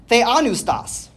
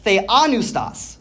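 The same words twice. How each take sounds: First: Theanustas sounded out slowly, syllable by syllable; careful Greek word. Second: Theanustas said again slowly and cleanly as the-a-nus-tas; repeated Greek word. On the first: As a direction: say theanustas slowly as the-a-nus-tas, falling at the end. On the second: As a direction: repeat Theanustas slowly so the class catches every syllable. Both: Shown as a demonstration. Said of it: "I'm gonna say that again".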